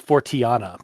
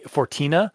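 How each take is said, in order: First: The final 'a' is lifted out as its own sound. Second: The ending runs together as a plain '-tina'. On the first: The speaker calls it right. "I think it's actually supposed to be Fortiana" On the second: The speaker calls it wrong. "we we keep calling it Forti, Fortina"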